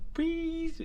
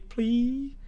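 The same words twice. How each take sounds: First: The word is pronounced unclearly, like a baby. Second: The word is pronounced clearly and normally. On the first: "애기 고양이라서 발음이 잘 안 돼서" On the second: "please가 아니라"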